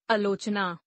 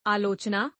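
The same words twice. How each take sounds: First: आलोचना starting on short uh, "alochana"; mispronounced. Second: Said in the usual way. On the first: Shown as a demonstration. Teacher showing a vowel error, mispronounced with short first a. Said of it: "अशुद्ध". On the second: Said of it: "शुद्ध".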